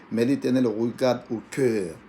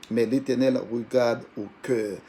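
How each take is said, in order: Both takes have the same delivery.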